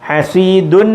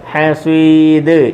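First: The word ends with an un sound. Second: The word ends on a bare d sound. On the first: "ഹസീദുൻ എന്നാണ് എഴുതിയേക്കുന്നത്" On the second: "full stop ആയതുകൊണ്ട്"

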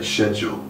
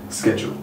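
First: It uses the older British pronunciation. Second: It uses the younger, American-influenced pronunciation. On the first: Older British speakers say it this way. "the older generation would tend to say schedule" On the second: Younger British speakers say it this way. "99% of the younger generation would say schedule"

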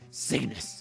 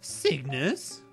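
First: It is said in a Solid Snake voice. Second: It is said in his normal voice.

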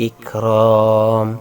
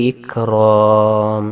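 Both takes have the same delivery.

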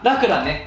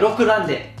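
First: The first syllable has an 'a' vowel. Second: The first syllable has an 'o' vowel. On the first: The speaker calls it wrong. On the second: The speaker calls it right.

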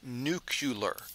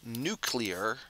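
First: The word is pronounced differently from its spelling. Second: The word is pronounced as it is spelled. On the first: The speaker calls it wrong. "not nuclear" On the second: The speaker calls it right. "that's pronounced nuclear"

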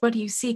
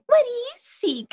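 First: It is asked as a plain, sincere question. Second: It is said in a mocking, rude tone. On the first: A genuine question is being asked. "I asked" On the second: The question is thrown back to make fun of the asker. "It just mocked me in return, It was really rude"

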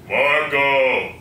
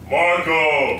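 First: It is said at a lower pitch. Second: It is said at a higher pitch.

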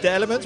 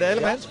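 First: The name is pronounced the English way. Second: The name is pronounced the Dutch way. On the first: The speaker calls it wrong. "niet de Elements" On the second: The speaker calls it right. "Je moet het op zijn Nederlands uitspreken"

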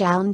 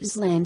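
First: It has a silent s and an 'eye' vowel. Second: The first vowel is 'ee' and s is sounded. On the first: The speaker calls it right. "island will not be read slash island slash" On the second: The speaker calls it wrong. "in the worst case"

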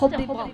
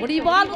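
First: The word is slurred as if without teeth. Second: The word is said clearly and fully. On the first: Old age keeps the word from coming out properly. The speaker calls it wrong. "উচ্চারণ হচ্ছে হরিবল" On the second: This is what the person means to say. The speaker calls it right. "বলতে চাইছে হরিবল"

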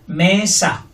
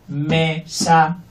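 First: The first syllable is stronger than the second. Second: Both syllables have the same flat force. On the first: The speaker calls it right. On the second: The speaker calls it wrong.

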